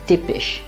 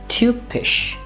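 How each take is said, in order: First: The first vowel is an unrounded i sound. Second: The first vowel is a rounded ü sound. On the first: The speaker calls it wrong. "Coming from English, we'll tend to call it tip" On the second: The speaker calls it right. "its pronunciation is U. It's very similar to the U umlaut"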